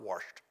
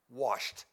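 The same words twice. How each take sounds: First: The word is said with an r sound. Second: The word is said without an r sound. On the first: The speaker calls it wrong. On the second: The speaker calls it right.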